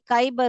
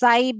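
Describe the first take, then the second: First: The word begins with a k sound. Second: The word begins with an s sound. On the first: The speaker calls it wrong. "अगर क डाल के पढ़ेंगे तो ये काइबर हो जाएगा" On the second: The speaker calls it right. "इसीलिए इसे हम स पढ़ेंगे"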